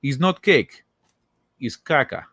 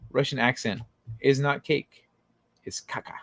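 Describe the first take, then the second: First: It is said in a put-on Russian accent. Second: It is said in his plain accent.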